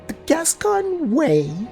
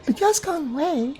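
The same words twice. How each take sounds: First: It is said with a skeptical, doubtful tone. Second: It is said flatly, as a plain statement.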